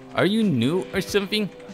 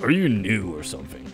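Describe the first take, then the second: First: It is said in a natural voice. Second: It is said in a put-on dad's voice.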